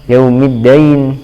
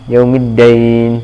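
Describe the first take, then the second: First: The last syllable has an 'ai' diphthong. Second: The last syllable has an 'ai' diphthong.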